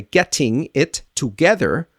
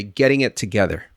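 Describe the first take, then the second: First: 'Getting it together' with every T hard and a full TOO; higher, word-by-word 'Getting it together', unreduced; foreign speaker. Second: Fast linked 'Getting it together', flapped T and tuh; American reductions. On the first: Teacher imitating a foreign speaker, unreduced 'Getting it together'. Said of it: "Unless you are a foreign speaker". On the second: Teacher giving the American way, reduced 'Getting it together'. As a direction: run 'Getting it together' as geddin-it-tuhgether. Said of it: "American speaker will say". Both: Shown as a demonstration.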